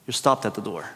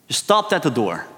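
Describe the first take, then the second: First: Soft echo of the previous line; quiet echo. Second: Said in the usual way. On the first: Real, not acted. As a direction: repeat it much softer, lower.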